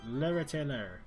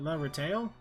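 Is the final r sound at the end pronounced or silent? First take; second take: pronounced; silent. First: The final r sound is pronounced. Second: The final r sound is left silent. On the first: The speaker calls it wrong. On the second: The speaker calls it right.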